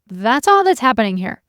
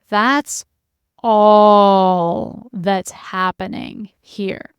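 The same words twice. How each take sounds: First: It is said lightly and casually. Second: It is said slowly with heavy weight. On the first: It is only a small thing. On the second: It is everything.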